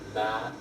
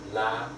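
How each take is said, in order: Both takes have the same delivery.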